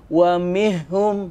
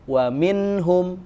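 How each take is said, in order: First: The n sound is merged away and not heard. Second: The n sound is clearly and briefly pronounced. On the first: The speaker calls it wrong. "Tidak boleh juga dimasukkan menjadi" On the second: The speaker calls it right. "Dia satu ketukan aja, ... Dibaca jelas"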